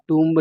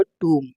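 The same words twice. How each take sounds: First: टूम्ब with the silent b wrongly voiced; wrong pronunciation. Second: टूम ending on m, b silent; correct pronunciation. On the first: Teacher rejecting the mistake, टूम्ब with audible b. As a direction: sound the b ending टूम्ब. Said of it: "इसमें B जो है silent है". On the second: Teacher correcting the word for students, टूम with silent b. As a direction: drop the b from टूम. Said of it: "इसका correct pronunciation जो है". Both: Shown as a demonstration.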